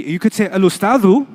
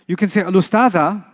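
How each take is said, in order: First: Ending al-ustadhu on a clear oo; al-ustadhu with a rounded final u; pron demo. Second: Ending al-ustadha on an open ah; al-ustadha with a clear final a; pron demo. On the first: Teacher showing the doer ending, al-ustadhu with final oo. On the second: Teacher contrasting the done-to ending, al-ustadha with final ah. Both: Shown as a demonstration. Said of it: "said in three".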